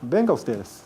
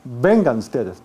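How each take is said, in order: First: The final n of vengan is dropped. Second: The final n of vengan is pronounced.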